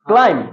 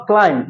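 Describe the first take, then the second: First: "climb" ending on m, no b; silent b. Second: "climb" with the final b sounded; wrong take with b. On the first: Teacher corrects students, silent b in "climb". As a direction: drop the b and close "climb" on m. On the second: Teacher shows the mistake to avoid, b sounded in "climb". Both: Shown as a demonstration. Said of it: "বটা বাদ দিয়ে কি বলবো".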